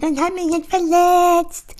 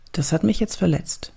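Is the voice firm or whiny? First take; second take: whiny; firm. First: It is said in a weak, whiny voice. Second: It is said in a steady, firm voice.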